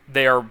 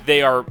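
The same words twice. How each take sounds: The two takes are said the same way.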